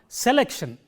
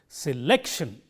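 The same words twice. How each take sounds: First: The stress is on the first syllable. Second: The stress is on the second syllable. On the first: The speaker calls it wrong. "I have made the first syllable stand out from the others" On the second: The speaker calls it right. "the syllable lek is highlighted here"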